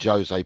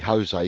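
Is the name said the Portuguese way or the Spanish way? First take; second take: Portuguese; Spanish. First: The name is said with a Portuguese pronunciation. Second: The name is said with a Spanish pronunciation. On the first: The speaker calls it wrong. "I'm not Jose Portuguese" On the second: The speaker calls it right. "because it's Spanish"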